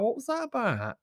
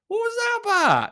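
First: Said in the usual way. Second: Much higher, louder "What was that about?"; incredulous repeat. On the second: Real, not acted. Repeating the question to viewers, high and incredulous.

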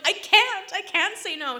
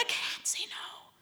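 First: High, much louder desperate protest; high loud I can't say no; loud pleading. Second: Slow, high, whispered plea; slow whispered I can't say no; whispered helplessness. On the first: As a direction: cry it out to the stylist, helpless. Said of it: "I'm like". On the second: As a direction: whisper it, defeated and small. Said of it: "And I'm like". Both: Retold or imitated.

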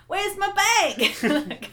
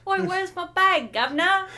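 First: Very slow, high, laughing English accent attempt; a failed, high stab at a Cockney voice; bad English accent. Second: Loud, high mock Cockney demand; louder, higher hammed-up Cockney, a second try at the accent; better Cockney accent. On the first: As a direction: fumble a London accent while giggling. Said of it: "Sorry, that was really bad". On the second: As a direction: bark it like a London tough. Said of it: "I feel like that's probably what it was more like".

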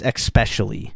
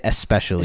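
First: "especially" said as "ek-specially"; X pronunciation. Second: "especially" said as "ess-pecially"; own pronunciation. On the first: Host guessing the pronunciation, "especially" with an added K. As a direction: sound a K before the S in "especially". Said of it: "I think it's especially". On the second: Host showing how he says it, "especially" without a K. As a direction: begin "especially" with S, no K. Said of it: "but I say it especially". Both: Shown as a demonstration.

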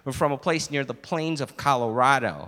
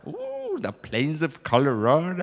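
First: Lower, matter-of-fact American statement; plain-spoken American customer; American accent. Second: Mock-impressed "ooh" and echo. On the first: Acted. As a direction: explain your origins in an American accent. American explains his origin, server mimics. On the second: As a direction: parrot the American, pretending to be impressed. Server mockingly echoes American's phrase.

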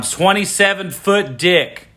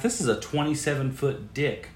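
First: "Twenty-seven foot dick" said slower and louder, each word hit; loud repeat. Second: Said in the usual way. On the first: Shown as a demonstration. Host repeating for the microphone, loud and slow. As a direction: belt it into the microphone. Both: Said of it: "I'm gonna say this one more time".

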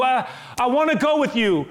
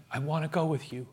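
First: High, louder "I wanna go with you"; the freed man begging Jesus loudly to take him; loud desperate plea. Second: Much softer, hushed "I wanna go with you"; a timid, hushed request to Jesus; quiet plea. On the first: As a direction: call it out desperately, pleading hard. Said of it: "he's begging". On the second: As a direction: ask it gently, barely above a whisper. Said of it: "I imagine that moment". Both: Acted.

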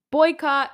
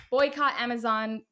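First: Louder and higher, a rallying cry; emphatic call. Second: Said in the usual way. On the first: Real, not acted. Calling for a boycott.

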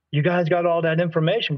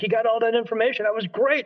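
First: Said in the usual way. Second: Quick, high-pitched excited question; eager, raised-pitch rush; retold excitement. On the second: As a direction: relive being thrilled, fast and higher. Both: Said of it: "'Cause I was excited".

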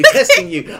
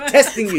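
First: Testing you squealed high and laughing. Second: Said in the usual way. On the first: Shown as a demonstration.

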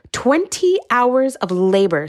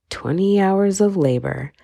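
First: "Twenty hours of labor" higher and slow, "twenty" hit hard and falling; "Twenty hours of labor" slow, lifted and emphatic, hammering "twenty"; stronger emphasis. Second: "Twenty hours of labor" said slowly, leaning on "of"; "Twenty hours of labor" slow and deliberate, no big push; mild emphasis. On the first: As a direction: repeat "Twenty hours of labor" with more outrage, punching "twenty". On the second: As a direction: state "Twenty hours of labor" with measured weight. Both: A narrator's reading.

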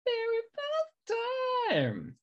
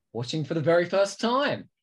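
First: Sing-song echo of her own words; playful echo. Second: Said in the usual way. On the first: Acted. Host echoing the intro line in a high, slow mock voice.

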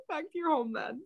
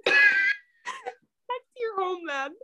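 First: Said in the usual way. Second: High, slow, breaking with laughter; laughing through words. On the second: Real, not acted. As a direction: squeal it out while laughing.

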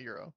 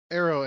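First: "Euro" said with an opening YOO sound; mispronunciation. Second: "Arrow" said with an opening AIR sound; correct pronunciation. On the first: Correcting a co-host on the store name, "Euro" tossed off as the wrong version. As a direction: say "Euro" starting on a Y glide, softly. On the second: Correcting a co-host on the store name, "Arrow" stressed clearly. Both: Shown as a demonstration. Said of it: "not Euro".

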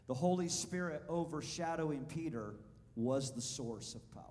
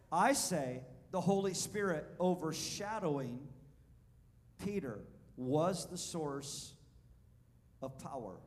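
First: Said in the usual way. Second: I say the Holy Spirit louder, Peter was the source drawn out slowly; preacher pressing the point home to the congregation, louder and slower; slow emphatic restatement. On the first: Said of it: "I want you to write it down". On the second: Shown as a demonstration. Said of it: "Did you hear that?".

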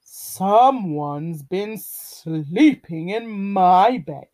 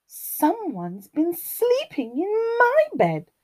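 First: Slow, drawn-out bear growl; growling Daddy Bear. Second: High, lilting mother bear voice; Mummy Bear. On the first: Daddy Bear finds his bed slept in, slow growl. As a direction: growl each word slowly as papa bear. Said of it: "growled Daddy Bear". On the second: Mummy Bear finds her bed slept in, high lilting complaint. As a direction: pitch it high as a put-out mama bear. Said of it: "rumbled Mummy Bear". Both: A narrator's reading.

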